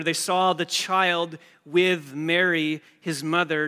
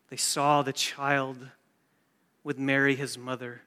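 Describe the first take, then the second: First: Put-on slow, loud, with "saw" and "child" hammered home; stress on saw and child. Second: Said in the usual way. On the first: Shown as a demonstration. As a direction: lean hard on "saw" and "child" to show the order. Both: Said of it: "Notice the order".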